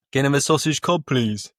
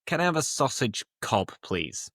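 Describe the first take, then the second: First: Louder, higher Brummie request; raised-pitch Brummie demo; Brummie accent. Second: Said in the usual way. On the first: Shown as a demonstration. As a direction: order at the counter in a thick Birmingham accent. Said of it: "That would be how they'd actually speak". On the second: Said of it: "It's like say".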